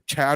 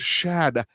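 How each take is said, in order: First: The name begins with a sharp 'ch' sound. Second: The name begins with a soft 'sh' sound. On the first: The speaker calls it wrong. "She would say Chad" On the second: The speaker calls it right. "Mom, it's Shad. That's sh"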